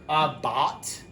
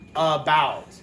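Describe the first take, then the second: First: The first vowel is a full a sound. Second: The first vowel is a reduced schwa sound. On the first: The speaker calls it wrong. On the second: The speaker calls it right.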